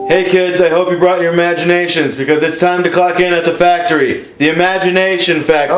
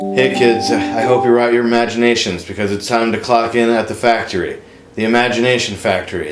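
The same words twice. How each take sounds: First: It is said very loudly. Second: It is said at a normal volume.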